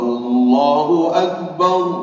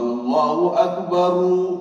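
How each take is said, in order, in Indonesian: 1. Kata terakhir berakhir dengan konsonan mati. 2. Kata terakhir berakhir dengan vokal tambahan. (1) "Jadi Allahu Akbar" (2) "Tidak bolehlah kita kita azan"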